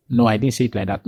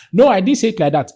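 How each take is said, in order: First: Said in the usual way. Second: Higher, quicker protest; heated denial. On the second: Acted. Cornered opponent denying what they said, heated protest. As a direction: protest fast, pitch jumping up. Other person denies again, thrown off balance.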